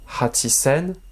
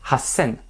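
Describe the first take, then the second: First: The 'chi' sound is kept in the middle. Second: The 'chi' sound is dropped, giving a double s. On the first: The speaker calls it wrong. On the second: The speaker calls it right.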